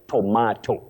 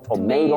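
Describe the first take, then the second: First: It is said with a British pronunciation. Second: It is said with an American pronunciation. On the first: "the British pronunciation, what we call R P, received pronunciation, you say tomato" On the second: "When you go to America, or when you use American English, ... You'll hear of tomato"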